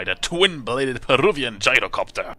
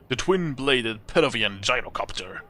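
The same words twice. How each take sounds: First: Loud, punched-up relish; impressed emphasis. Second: Said in the usual way. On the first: Real, not acted. Player picking the craft to fly, impressed emphasis. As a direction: hit each word with relish. Repeats item, impressed, in louder voice.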